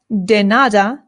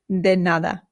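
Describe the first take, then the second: First: The D is hard, like in English. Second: The D is soft, tongue near the teeth. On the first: The speaker calls it wrong. "this is not de nada" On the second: The speaker calls it right. "the D in Spanish is much softer than it is in English"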